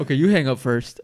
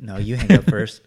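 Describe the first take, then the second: First: Coy lovers' phone goodbye; sweetly tease, you hang up first; giggly late night call. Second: Teasing lovers' reply, louder; giggly late night call. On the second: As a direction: play the sappy partner refusing to hang up. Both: Pretend. Couple-style call ending mock.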